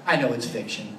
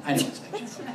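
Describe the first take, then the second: First: Said in the usual way. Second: "I know it's fiction" said again with a laugh; laughing repeat. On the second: Real, not acted. Admitting to the group the movie is fiction, laughing. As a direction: chuckle through the admission.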